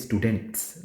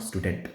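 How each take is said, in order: First: "students" with a clear S after the T; final S sounded. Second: "student" ending on the T, without S; no final S. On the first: Tutor contrasts plural with singular word, final S sounded. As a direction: land on the S ending "students". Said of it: "you have to stress on the S". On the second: Tutor shows the word not to say, no final S. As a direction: stop "student" at the T, no S sound. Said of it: "not student". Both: Shown as a demonstration.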